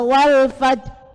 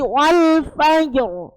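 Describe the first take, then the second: First: The final r sound is missing. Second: The final r sound is heavy and audible. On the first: The speaker calls it wrong. "roknya hilang" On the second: The speaker calls it right. "tebal, tebal"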